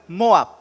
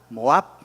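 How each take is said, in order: First: The stress is on the first syllable. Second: The stress is on the second syllable. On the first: The speaker calls it wrong. "Si fuera la O, diría" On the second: The speaker calls it right. "pero es la A"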